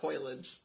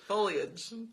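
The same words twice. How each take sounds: First: The first part sounds like 'foil'. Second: The first part sounds like 'foe'. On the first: The speaker calls it wrong. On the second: The speaker calls it right.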